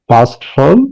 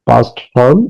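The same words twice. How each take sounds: The two takes are said the same way.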